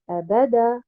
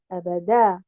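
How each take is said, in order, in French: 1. L'accent est sur la syllabe du milieu. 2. L'accent est sur la dernière syllabe. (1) "En plaçant un nabr sur harakat al-ba" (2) "en plaçant un nabr sur harakat al-dal à la fin"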